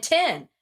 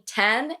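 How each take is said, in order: First: "ten" said like tin; tin-like pronunciation. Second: "ten" with a short e; ten pronunciation. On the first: Explaining two confusable words, tin-like pronunciation. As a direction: raise the vowel in "ten" to short i. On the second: Explaining two confusable words, ten pronunciation. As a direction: say "ten" with the vowel of bed. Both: Shown as a demonstration. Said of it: "the difference between ten and ten".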